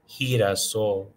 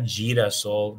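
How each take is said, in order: First: The word begins with a breathy H sound. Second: The word begins with a hard G sound. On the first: The speaker calls it right. "that G E and G I pronounces an H sound" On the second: The speaker calls it wrong. "not girasol"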